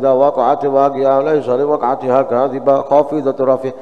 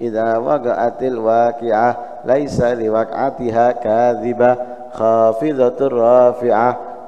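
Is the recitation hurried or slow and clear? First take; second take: hurried; slow and clear. First: It is recited quickly, with rushed, clipped sounds. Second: It is recited steadily, with full lengths and clear sounds. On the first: The reader feels restless and not at peace. The speaker calls it wrong. "Makanya mocone ngebut" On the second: The reader feels calm and at peace. The speaker calls it right. "makhraj hurufnya sesuai, panjang pendeknya itu terpenuhi, kemudian jelas"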